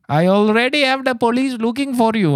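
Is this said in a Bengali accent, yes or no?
yes. It is said in a put-on Bengali accent.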